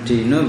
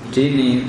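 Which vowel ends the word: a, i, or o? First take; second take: o; i. First: The word ends in an o vowel. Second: The word ends in an i vowel. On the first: "Bukan dino" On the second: "bukan dini"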